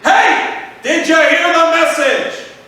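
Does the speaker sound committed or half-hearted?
committed. It sounds bold and fully committed.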